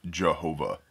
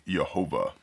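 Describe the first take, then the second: First: Jehovah said "juh-HO-vah"; alternative pronunciation. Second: Yehovah said "yeh-HO-vah"; alternative pronunciation. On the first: Showing another common form, Jehovah with initial J. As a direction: start Jehovah with a hard English J. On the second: Showing what others say, Yehovah with initial Y. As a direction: start Yehovah with a Y sound. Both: Shown as a demonstration. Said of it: "Other people say".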